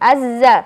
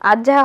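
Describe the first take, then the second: First: The consonant is said the Arabic way. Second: The consonant is said the Bengali way. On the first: "আরবিতে পড়তে তাহলে আজ্জা" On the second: "বাংলায় আজ্ঝা হয়"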